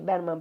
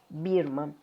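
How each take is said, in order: First: The first vowel sounds like 'e'. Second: The first vowel sounds like 'ee'. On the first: The speaker calls it wrong. "Yo creo que pronuncié Berman" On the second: The speaker calls it right. "creo que la pronunciación correcta es Franz Birman"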